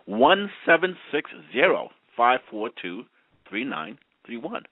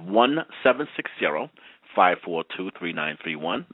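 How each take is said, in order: First: The number is read slowly. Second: The number is read at normal speed.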